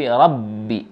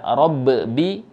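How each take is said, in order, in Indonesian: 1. Huruf ba yang bertasydid diucapkan tanpa pantulan. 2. Huruf ba yang bertasydid memiliki pantulan yang bergema. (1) "tetapi rabbi. Qalqalahnya yang ada dalam huruf ba menghilang" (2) "tidak rabbi"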